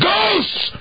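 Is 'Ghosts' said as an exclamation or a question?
exclamation. The word is shouted loudly as an exclamation. The speaker is certain ghosts exist. "why did you scream that?"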